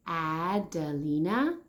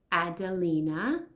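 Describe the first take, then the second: First: Adelina stretched slowly to show its A; slow sounding out. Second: Said in the usual way. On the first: Shown as a demonstration. Teacher sounding out a name for kids, slowly. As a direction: draw out Adelina so kids hear the first sound. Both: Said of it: "We hear the A sound".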